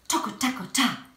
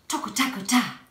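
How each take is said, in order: The two takes are said the same way.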